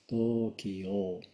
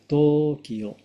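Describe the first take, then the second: First: Both o vowels are lengthened. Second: The vowels are short, not lengthened. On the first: The speaker calls it right. "前の、と、最後の、お、両方伸ばします。" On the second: The speaker calls it wrong. "伸ばさない"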